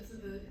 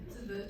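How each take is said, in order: Both takes have the same delivery.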